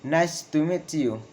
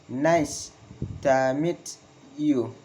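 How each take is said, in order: First: "Nice to meet you" in one run, falling on "you"; falling intonation. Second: "Nice... to meet... you", broken up with pauses; falling intonation, word by word. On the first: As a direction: model the falling statement, "you" dropping. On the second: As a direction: dictate it in pieces, dropping on "you". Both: Shown as a demonstration. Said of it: "Falling intonation in statement".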